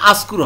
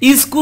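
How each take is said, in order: First: The word begins with an a vowel. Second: The word begins with an i vowel. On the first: "আসকুর হবে না" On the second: "ইজকুর হবে না"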